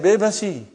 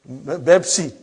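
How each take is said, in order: First: It starts with b, with a vowel before s. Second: It starts with b, with no vowel before s. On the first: This is how Indian speakers say it. "those Indian people say? They don't say Bepsi, they say Bebasi" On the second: This is how Arabic speakers say it. "what do you think they call uh, Pepsi Cola in uh, Bepsi?"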